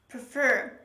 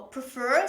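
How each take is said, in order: First: The stress is on the second syllable. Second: The stress is on the first syllable. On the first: The speaker calls it right. "Pay attention to the pronunciation of this word" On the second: The speaker calls it wrong. "they usually put the stress on the first syllable"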